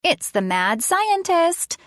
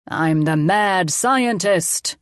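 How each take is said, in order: First: High, drawn-out playful warning; slow mock-spooky little girl voice; funny child voice. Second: Very slow, drawn-out villain boast; mad scientist. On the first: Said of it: "she said in a funny voice". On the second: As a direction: announce it as a play villain. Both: A narrator's reading.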